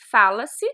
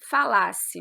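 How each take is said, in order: First: The stress is on the first syllable. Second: The stress is on the second syllable. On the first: An action is generalized in the present. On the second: A hypothetical past condition is expressed.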